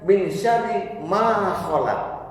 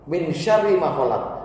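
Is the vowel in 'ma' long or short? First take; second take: long; short. First: The vowel in 'ma' is long. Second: The vowel in 'ma' is short. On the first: It means from the evil of what was never created. The speaker calls it wrong. "Tapi orang Khawarij mengartikan" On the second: It means from the evil of what He created. The speaker calls it right. "Ma khalaq tuh dengan ma-nya dibaca cepat"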